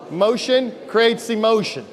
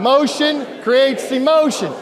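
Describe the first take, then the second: First: Flat group chant; chanted, say it like a robot; robotic chant. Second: Loud, slow, high energetic shout. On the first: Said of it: "let's say it less like a robot". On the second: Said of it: "a little more energy". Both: Shown as a demonstration.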